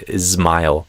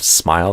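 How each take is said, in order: First: An extra vowel comes before the s. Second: It starts directly with the s sound. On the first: "they say ismile" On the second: "instead of smile"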